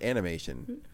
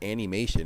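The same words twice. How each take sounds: First: The word starts with a short 'an' sound. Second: The word starts with a drawn-out 'Annie' sound. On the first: The speaker calls it right. "It's animation" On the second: The speaker calls it wrong. "We don't pronounce it as animation"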